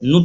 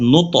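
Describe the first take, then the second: First: "নু" as one short syllable, no echo after it; wrong vowel demo. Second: "নু, ত" with an echoed release on "ত"; corrected qalqala reading. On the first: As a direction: show the mistaken "নু". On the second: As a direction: model "নু, ত", letting "ত" bounce. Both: Shown as a demonstration. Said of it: "নু যেন না হয়".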